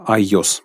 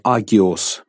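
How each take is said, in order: First: No g sound; a y-glide follows the a. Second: A full g sound is heard after the a. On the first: "Но произносится «айос» по-гречески" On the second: "слово «агиос» по-гречески — это «святой»"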